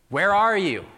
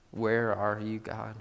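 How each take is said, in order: First: Loud, high-pitched cry to God. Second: Said in the usual way. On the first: Acted. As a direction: burst out, demanding an answer. Same question escalates to a cry.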